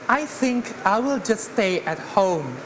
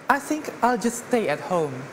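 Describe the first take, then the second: First: It is spoken slowly and more deliberately. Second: It is spoken at a normal conversational speed.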